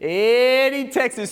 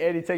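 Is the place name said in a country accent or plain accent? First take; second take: country; plain. First: It is said in a rural Texas country accent. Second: It is said in a plain, neutral accent. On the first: "you said it with the stinking little accent" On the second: "You didn't just say"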